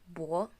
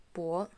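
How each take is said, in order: First: The pitch rises from low to high. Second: The pitch rises from low to high.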